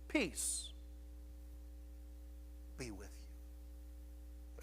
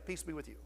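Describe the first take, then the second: First: There is a dramatic pause after 'peace'. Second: The words run together with no pause. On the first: "A pause, a dramatic pause there" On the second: "He doesn't just come in and say"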